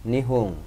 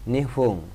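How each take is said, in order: Both takes have the same delivery.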